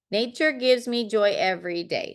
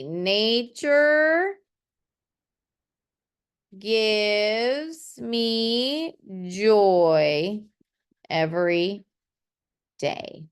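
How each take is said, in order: First: Said in the usual way. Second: Drawn-out, very slow reading of a finished poem line. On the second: Shown as a demonstration. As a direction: stretch each word like reading the poem aloud to the class. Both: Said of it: "So that's what it's gonna be".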